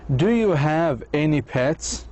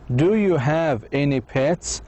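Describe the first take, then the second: No difference in how they are said.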